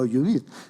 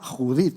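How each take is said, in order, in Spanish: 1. El nombre empieza con una j suave, como en inglés. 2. El nombre empieza con un sonido h fuerte, gutural. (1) "no Judith" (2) "la J en castellano se pronuncia así"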